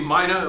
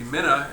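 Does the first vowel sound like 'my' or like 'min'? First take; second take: my; min. First: The first vowel sounds like the word 'my'. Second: The first vowel sounds like the start of 'min'. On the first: "like in mina bird" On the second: "as in what we hear when we say minimum"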